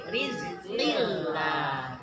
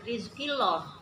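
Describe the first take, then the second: First: The l in lah sounds thin and light. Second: The l in lah sounds heavy and full. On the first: The speaker calls it right. "la-nya itu tartik" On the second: The speaker calls it wrong. "Jadi tidak"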